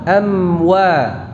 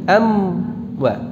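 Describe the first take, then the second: First: The lips round only on the 'wa'. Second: The lips round already during the 'am'. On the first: The speaker calls it right. "Mencucunya pada saat mengucapkan wawunya saja" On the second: The speaker calls it wrong. "bukan begini"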